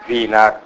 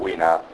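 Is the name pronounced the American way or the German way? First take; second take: German; American. First: The name is pronounced the German way. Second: The name is pronounced the American way. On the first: "Wiener alla tedesca" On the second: "Wiener all'americana"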